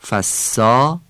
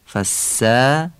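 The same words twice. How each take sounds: First: The long vowel is a full, back Persian a. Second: The long vowel is thin, leaning toward e. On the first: The speaker calls it wrong. "فارسیه" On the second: The speaker calls it right. "فصیح عربیه"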